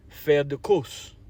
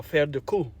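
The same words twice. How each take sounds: First: "course" said like "koos"; final s sounded. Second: "course" said like "koo"; final s silent. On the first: Offering one French pronunciation to viewers, "course" ending in s. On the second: Offering the other French pronunciation to viewers, "course" with silent s. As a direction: drop the closing s of "course", ending on the vowel. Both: Shown as a demonstration. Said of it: "I think "course" or "course".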